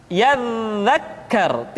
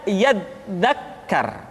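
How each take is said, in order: First: "Yadzakkar" with a long, continuous buzzing dz; flowing dz. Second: "yadzakkar" with the dz stopped like a hard d; blocked dz. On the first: Teacher showing the correct form, "Yadzakkar" with flowing dz. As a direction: sustain the dz in "Yadzakkar" slowly. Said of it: "suara dialirkan dengan lembut". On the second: Teacher showing the error, "yadzakkar" with stopped d. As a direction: cut the dz of "yadzakkar" short, leaving a gap. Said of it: "tidak yadzakkar". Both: Shown as a demonstration.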